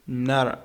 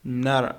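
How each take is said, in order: First: The T is a quick D-like flap. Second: The T is a quick D-like flap.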